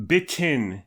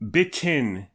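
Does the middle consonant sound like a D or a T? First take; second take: T; T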